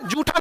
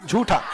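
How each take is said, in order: First: झूठा said the way the student said it, the form the teacher rejects; wrong pronunciation. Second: झूठा said carefully and lower, as the model form; correct pronunciation. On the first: Teacher echoing a student's झूठा to correct it, mock wrong take. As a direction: say झूठा as the mistaken version, lightly mocking. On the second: Teacher modelling झूठा for the student, careful corrected take. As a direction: give झूठा slowly and clearly as the right version. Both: Shown as a demonstration. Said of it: "झूठा नहीं रे बबुआ".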